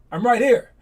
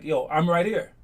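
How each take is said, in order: First: Calling out. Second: Said in the usual way. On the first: Retold or imitated. Calling out, announcing himself.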